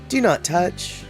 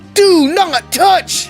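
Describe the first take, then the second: First: It is said in a softer, less commanding way. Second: It is said as a firm, stern command. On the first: The warning is not meant seriously. The speaker calls it wrong. "It's not" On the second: The warning is meant seriously. The speaker calls it right. "it's very clear that the tone is"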